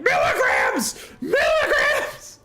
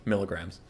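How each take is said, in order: First: Very high, drawn-out shriek; exasperated scream. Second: Low, soft muttered correction; under the breath. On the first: Driver after the sixth or seventh wrong unit, exasperated scream. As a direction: scream it like you have completely lost it. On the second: Driver correcting the podcast the first time, under the breath. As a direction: say it quietly to yourself. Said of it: "under my breath, I was like". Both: Retold or imitated.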